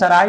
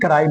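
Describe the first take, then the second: First: The word begins with an s sound. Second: The word begins with a k sound. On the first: The speaker calls it wrong. "तो हम सराय नहीं" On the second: The speaker calls it right. "बल्कि कराई बोलेंगे"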